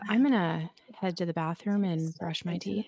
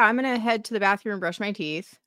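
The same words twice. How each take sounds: First: It is said in a sultry, erotic voice. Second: It is said in a plain, ordinary voice.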